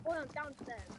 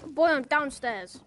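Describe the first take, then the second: First: Soft distant echo of the call; faint echo. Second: Slow loud call downstairs; yelling across the room. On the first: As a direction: sound far off, like an echo. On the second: Calling from another room. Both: Pretend.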